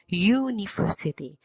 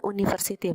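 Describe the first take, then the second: First: It begins with a consonant y sound. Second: It begins with a plain vowel sound. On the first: The speaker calls it right. "melainkan university" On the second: The speaker calls it wrong. "bukan university"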